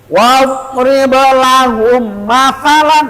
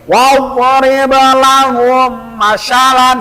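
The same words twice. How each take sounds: First: The middle consonant of masalan is a th. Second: The middle consonant of masalan is a plain s. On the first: The speaker calls it right. "Nah itu yang benar, masalan. Ujung lidah dengan ujung gigi yang atas" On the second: The speaker calls it wrong. "sin besar"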